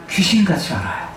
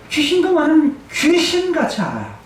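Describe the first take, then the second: First: Said in the usual way. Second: 귀신도 punched higher at the start of 귀신도 많은 귀신같이 알아요; raised, stressed 귀신도 in the restated phrase; emphatic repeat. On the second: Shown as a demonstration. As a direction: hit 귀신도 hard and high on the repeat.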